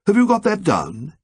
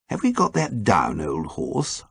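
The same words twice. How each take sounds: First: Prim, exact question rising on you; odd precise way. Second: Gently humouring a sick friend. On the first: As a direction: precise and oddly formal, checking. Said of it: "in that odd, precise way". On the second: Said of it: "asked Ukridge gently". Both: A narrator's reading.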